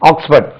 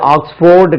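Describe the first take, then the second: First: The second syllable is a reduced 'fud'. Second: The second syllable is a full 'ford'. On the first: The speaker calls it right. "ஆக்ஸ்ஃபர்ட் தான் சொல்லணும்" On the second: The speaker calls it wrong. "இது ஆக்ஸ்போர்டு கிடையாது"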